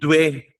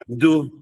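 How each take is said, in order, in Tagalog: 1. May glide ang pagbigkas, parang 'dway'. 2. Diretso ang pagbigkas, parang 'do'. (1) "Hindi dwe" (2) "tapos do"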